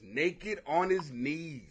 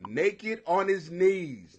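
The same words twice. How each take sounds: First: Drawn out, dropping softer; slow incredulous mutter; slow quieter repeat. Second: Slow repeat. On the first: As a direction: savour each word slowly. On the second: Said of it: "police found him naked". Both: Shown as a demonstration.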